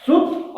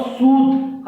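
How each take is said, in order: First: सुत with a short, quick u vowel. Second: सूत with a long, drawn-out oo. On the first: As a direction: keep the u in सुत brief. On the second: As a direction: stretch the vowel in सूत. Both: Shown as a demonstration. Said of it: "हसौ और दीर्घों में अंतर".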